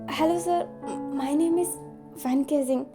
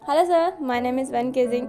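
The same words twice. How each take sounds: First: It is said in a nervous way. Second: It is said in an overly confident way.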